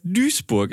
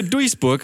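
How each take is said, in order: First: „Duisburg“ wie „Düsburg“; ui als ü. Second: „Duisburg“ mit u-i statt ü; ui wie geschrieben. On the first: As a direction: sag „Duisburg“ mit langem ü. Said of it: "Es ist ganz merkwürdig". (langes ü statt u-i in „Duisburg“) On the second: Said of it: "was heißt Duisburg?". (u-i in „Duisburg“, nach Schriftbild) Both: Shown as a demonstration.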